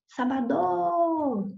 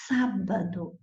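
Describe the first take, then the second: First: The stress falls on a later syllable. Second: The stress falls on the first syllable. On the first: The speaker calls it wrong. "eu não falarei" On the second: The speaker calls it right. "e sim sábado. Esta é a mais forte, é a antepenúltima"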